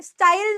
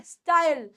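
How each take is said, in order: First: स्टाइल with a full ee, "sta-eel"; wrong pronunciation of style. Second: स्टाइल gliding into "yal", "sta-yal"; correct pronunciation of style. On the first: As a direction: say स्टाइल as a mistaken "staa-il". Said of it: "स्टाइल नहीं बोलना". (स्टाइल को गलत "स्टा-ईल" बोलते हुए) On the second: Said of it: "स्टाइल नहीं है". (स्टाइल का सही उच्चारण "स्टायल") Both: Shown as a demonstration.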